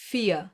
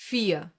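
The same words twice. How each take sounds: First: "Vier" ending on ah, R left out; silent R again. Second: "Vier" ending on ah, no R; silent R. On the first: Teacher repeats so learners hear the missing R. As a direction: leave off the R of "Vier". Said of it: "Listen again". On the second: Teacher has learners listen for the missing R. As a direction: drop the R of "Vier". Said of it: "listen to it here". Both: Shown as a demonstration.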